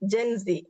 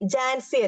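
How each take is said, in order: First: The first syllable has an 'e' vowel. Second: The first syllable has an open 'a' vowel. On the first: The speaker calls it right. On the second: The speaker calls it wrong. "ജാൻസി അല്ല"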